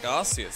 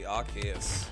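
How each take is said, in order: First: The C is said as a soft S sound. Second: The C is said as a hard K sound. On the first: "I'm assuming it that looks like Arceus" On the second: "it kind of looks like it should be a hard C"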